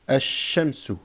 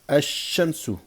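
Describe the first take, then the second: Both takes have the same delivery.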